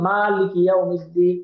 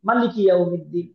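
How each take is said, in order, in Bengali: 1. maliki-এর প্রথম স্বরধ্বনিটি টেনে দীর্ঘ করে পড়া হয়। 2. maliki-এর প্রথম স্বরধ্বনিটি হ্রস্ব রাখা হয়। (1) "এটা টান সহকারে" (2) "টান ছাড়াও"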